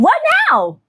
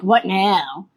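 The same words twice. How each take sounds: First: It sounds upbeat and positive. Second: It sounds exasperated and negative. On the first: Looking forward to the next step. The speaker calls it right. "you're going to be like" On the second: Giving up in frustration at the setback. The speaker calls it wrong. "You're not going to be like"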